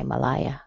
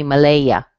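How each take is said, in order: First: Malaya as muh-LIE-uh; preferred pronunciation. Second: Malaya as muh-LAY-uh; alternative pronunciation. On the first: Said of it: "I would probably say Malaya". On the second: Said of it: "this person may say". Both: Shown as a demonstration.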